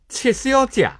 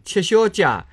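First: It is said with the older Shanghainese pronunciation. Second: It is said with today's Shanghainese pronunciation. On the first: This is how older Shanghainese speakers said it. "是读谢先生、戚小姐" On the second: This is how people say it now. "以前勿是搿能读的"

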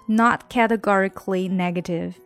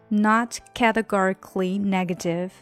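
No difference in how they are said.

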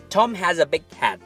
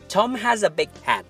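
Both takes have the same delivery.

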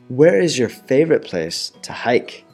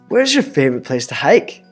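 First: It is said slowly. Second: It is said at normal speed.

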